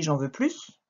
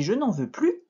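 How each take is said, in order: First: "j'en veux plus" with "plus" ending in S; sounded S. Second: "je n'en veux plus" with "plus" said "plu"; silent S. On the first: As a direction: pronounce the final S of "plus". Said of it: "là, tu entendras le S". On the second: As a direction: leave the S of "plus" mute. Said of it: "là, on ne l'entend pas". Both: Shown as a demonstration.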